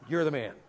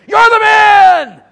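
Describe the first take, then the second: First: It sounds like an imitation of Brother Harold. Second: It sounds like a fiery camp meeting preacher.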